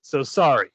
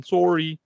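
First: Said in the usual way. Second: Put-on Canadian accent, "Sorry" said as "sore-y" with a rounded o; a playful Canadian-accent "Sorry". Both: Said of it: "Sorry is my best Canadian impression".

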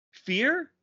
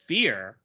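First: "Fear?" rising sharply high in disbelief; incredulous. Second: Said in the usual way. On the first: Shown as a demonstration. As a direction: sound baffled, pitch way up on "Fear?". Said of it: "in Negaduck?". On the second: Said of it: "Fear? In Negaduck?".

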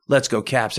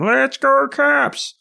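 First: Said in the usual way. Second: High-pitched stretched-out fan holler; mock bellow from the stands; bellowing fan yell. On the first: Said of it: "then everybody starts chanting". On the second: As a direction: imitate a loudmouth calling over the whole arena. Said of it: "bellowing voice".

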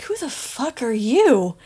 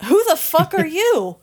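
First: Slow, scornful once-over; dismissive challenge. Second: Higher, hammed-up demand; sharper repeat. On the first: Acted. Supervisor sizing up Benny, scornful and slow. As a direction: size the stranger up with contempt. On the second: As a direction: snap it out higher the second time. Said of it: "and then he says".

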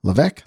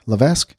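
First: Levesque tried as "luh-VECK"; silent-S pronunciation. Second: Levesque tried as "luh-VESK"; sounded-S pronunciation. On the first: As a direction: drop the S in Levesque, ending in "veck". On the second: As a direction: keep the S in Levesque, ending in "vesk". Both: Real, not acted. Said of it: "is that pronounced Levesque or Levesque".

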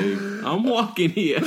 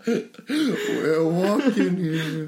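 First: Slow, higher, laughing I'm walking here; New York tough guy. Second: Very slow, higher and louder; New York tough guy. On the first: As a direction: bark it like a cranky New Yorker. Movie quote impression. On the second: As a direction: drag it out like a street tough. Echoing the movie quote. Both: Pretend.

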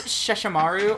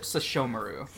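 First: "Sesshomaru" said SESH-uh-MAR-oo; first pronunciation. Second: "Sesshomaru" said seh-SHO-muh-roo; alternative pronunciation. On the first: Podcaster asking about anime canon, "Sesshomaru" as SESH-uh-MAR-oo. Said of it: "Is it Sesshomaru or is it". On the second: Podcaster offering the other option, "Sesshomaru" as seh-SHO-muh-roo. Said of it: "or is it Sesshomaru". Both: Shown as a demonstration.

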